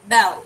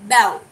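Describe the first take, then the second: Both takes have the same delivery.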